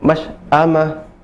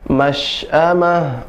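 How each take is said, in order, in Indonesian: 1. Bunyi sh ditahan dan dipotong pendek. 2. Bunyi sh mengalir dengan napas yang menyebar. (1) "tidak boleh" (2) "nafas udaranya menyebar dan mengalir"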